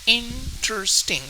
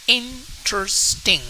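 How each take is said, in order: First: The word is said with three syllables. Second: The same.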